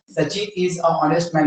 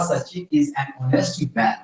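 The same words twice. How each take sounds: First: Slow "a honest", article with no n before the vowel; deliberate wrong example, "a honest man" without the n; wrong article demo. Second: Slow, lower, softer "an honest", n leading into the vowel; correct article demo. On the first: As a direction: read it slowly with "a" before "honest". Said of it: "तो ये गलत है". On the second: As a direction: say "an honest man" slowly, sounding the n. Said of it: "तो क्या होगा?". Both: Shown as a demonstration.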